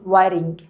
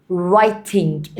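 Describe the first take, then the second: First: WRITING with the T softened to a quick flap; American flap T. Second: WRITING with a full, crisp T in the middle; clear T. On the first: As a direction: say "writing" the American way, T tapped like a light R. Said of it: "الأمريكان بينطقوا التي دي شوية". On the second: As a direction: say "writing" slowly with a true T sound. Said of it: "انطقها تي". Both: Shown as a demonstration.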